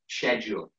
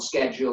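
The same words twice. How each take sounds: First: The word begins with an 'sh' sound. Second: The word begins with an 'sk' sound. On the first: The speaker calls it right. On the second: The speaker calls it wrong.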